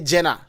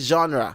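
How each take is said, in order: First: It is pronounced the Ghanaian way. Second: It is pronounced the English way. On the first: "Ghanaian say Jenna, but it's not Jenna" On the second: "in English say genre"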